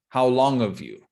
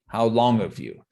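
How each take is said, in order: First: The h is dropped, sounding like 'of'. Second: The h is dropped, sounding like 'of'.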